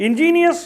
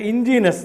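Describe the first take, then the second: First: Ingenious as in-JEE-nee-us, pitched high and loud; ingenious with extra i. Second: Ingenious as in-JEE-nus, loud; three syllables in ingenious, no i before the ending; word without i. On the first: Teacher showing students the difference, ingenious said in-JEE-nee-us. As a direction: sound all four syllables of ingenious, in-JEE-nee-us. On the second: Teacher showing students the difference, ingenious said in-JEE-nus. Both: Shown as a demonstration. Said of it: "See the difference".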